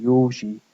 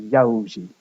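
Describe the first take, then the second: First: "Józsi" with a single pure o, YOH-zhee; standard pronunciation. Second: "Józsi" with a gliding diphthong, YOW-zhee; eastern dialect pronunciation. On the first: Lecturer citing a Hungarian name, monophthong "Józsi". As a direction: keep the o of "Józsi" steady, no glide. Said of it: "is often pronounced as". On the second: Lecturer showing how the east says it, diphthong "Józsi". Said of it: "in the east is often pronounced". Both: Shown as a demonstration.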